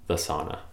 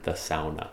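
First: The word is said the usual English way. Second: The word is said the Finnish way.

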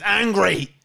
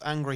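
First: The word is said loudly, with exaggerated intensity. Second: The word is said flatly, with ordinary energy. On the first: Over-the-top anger. "It's like high energy emotions" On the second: Ordinary anger. "he's not just angry"

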